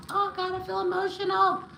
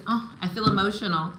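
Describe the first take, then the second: First: High, choked-up little wail; emotional, near tears. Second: Said in the usual way. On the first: Real, not acted. Reader overcome by a client's message, high and emotional. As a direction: let the feeling push your voice right up.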